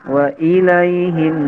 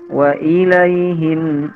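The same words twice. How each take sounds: No difference in how they are said.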